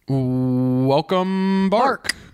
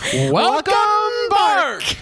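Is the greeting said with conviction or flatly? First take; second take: flat; conviction. First: It is said flatly, without conviction. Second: It is said firmly, with conviction. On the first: The speaker calls it wrong. "you've stopped saying it with conviction" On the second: The speaker calls it right. "it was better"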